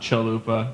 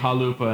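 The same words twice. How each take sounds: First: The name is said with English sounds. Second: The name is said with Czech sounds. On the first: The speaker calls it wrong. "and not Chalupa" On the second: The speaker calls it right. "it's supposed to be Chalupa"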